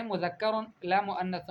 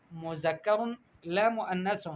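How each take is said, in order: First: "مذکر" as mudhakkar, "مؤنث" as muannath; correct ذ and ث. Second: "مذکر" with z, "مؤنث" with s; mispronounced ذ and ث. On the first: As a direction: model "مذکر" and "مؤنث" with tongue between teeth. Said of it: "قولی، آپ کہیں". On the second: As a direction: say "مذکر" as muzakkar and "مؤنث" as muannas. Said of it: "الفاظ کی معوجتا". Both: Shown as a demonstration.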